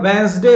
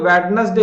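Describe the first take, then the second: First: The middle d sound is left silent. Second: The middle d sound is clearly pronounced. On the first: The speaker calls it right. "इसमें जो डी है ना भाई, ये silent है" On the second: The speaker calls it wrong. "ये वेडनेसडे नहीं होता है"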